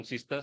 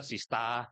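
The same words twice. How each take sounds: First: Said in the usual way. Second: "sista" ending in an open Australian "ah"; Australian accent. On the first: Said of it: "Kalau Inggris Australia lebih". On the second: Shown as a demonstration. Judge showing how Australians say sister, Australian accent on "sista". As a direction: drop the r in "sista", Australian style. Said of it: "lebih enak gitu".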